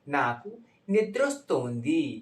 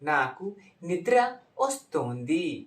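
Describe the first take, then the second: First: The last two words run together quickly. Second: Each word is said fully and separately.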